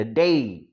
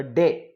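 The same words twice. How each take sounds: First: "day" stretched into a full falling glide; correct pronunciation. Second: Said in the usual way. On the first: Shown as a demonstration. Teacher correcting everyday speech, "day" with a long glide. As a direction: draw out the diphthong at the end of "day". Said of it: "but we have to pronounce it as". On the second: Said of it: "generally we call".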